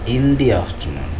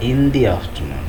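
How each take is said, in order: First: 'The' is said with a long 'thee' vowel. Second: 'The' is said with a long 'thee' vowel.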